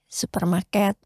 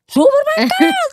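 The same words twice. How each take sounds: First: The word is said quietly and gently. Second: The word is shouted very loudly. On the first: A calm, polite answer. "Jadi ketika dijawab pelan-pelan misalnya ya" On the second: The listener could not hear the earlier answers. "Hanya ngejerit ya, terpaksa gitu"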